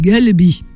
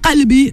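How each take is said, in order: First: It begins with a g sound. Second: It begins with a q sound.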